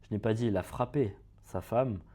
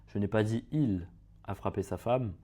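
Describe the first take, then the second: First: The word "frappé" carries the stress. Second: The word "il" carries the stress. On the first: He did something else to his wife. "on dit qu'il a fait quelque chose d'autre à sa femme" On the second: Someone else hit his wife. "si on accentue sur un certain mot"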